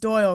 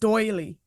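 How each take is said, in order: First: The name is said as one syllable. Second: The name is said as two syllables. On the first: This is how the people present say it. "hearing you guys pronounce it Doyle" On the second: This is how other people say it. "I hear other people pronounce it doily"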